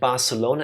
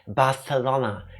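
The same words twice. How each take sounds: First: It is said with the common English pronunciation. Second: It is said with a Spanish pronunciation. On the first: The speaker calls it wrong. "technically it's not Ibiza and Barcelona" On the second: The speaker calls it right. "it's Barcelona and Ibiza, I think"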